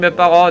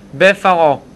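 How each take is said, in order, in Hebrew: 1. העיצור הוא צליל p קשה. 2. העיצור הוא צליל f רך. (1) "לא אומרים בפרעה" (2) "בלי לדבר מילה יוריד את הדגש"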